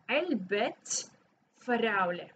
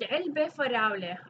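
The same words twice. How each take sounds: First: The first word ends with a clear 't' sound. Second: The first word ends without a 't' sound. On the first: The box belongs to the strawberries. The speaker calls it right. "we pronounce the ta because there's an ownership" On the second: It just means box strawberries. The speaker calls it wrong. "that doesn't make any sense"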